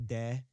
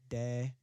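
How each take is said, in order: The two takes are said the same way.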